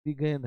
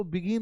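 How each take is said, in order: First: "begin" said as bi-GEN, with an e; "begin" turned into past-tense began, bi-gen; pronounced "began". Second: "begin" with an i in the second syllable; "begin" rhyming with "pin"; pronounced "begin". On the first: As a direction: say "begin" with an open e in the second syllable. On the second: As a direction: say "begin" as bi-GIN, short i. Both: Shown as a demonstration. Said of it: "इसको begin नहीं पढ़िएगा".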